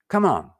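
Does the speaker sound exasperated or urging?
urging. It sounds urging, like hurrying someone along. The speaker wants someone to hurry up. "こんな風だったらどうかな。 さあ、早くって意味ですね。"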